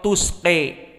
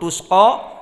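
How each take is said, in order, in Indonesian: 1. Vokal akhirnya condong kuat ke e. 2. Vokal akhirnya adalah a yang jelas dan terbuka. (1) "Al-Kisai dengan imalah al-kubra" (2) "qiraah jumhur"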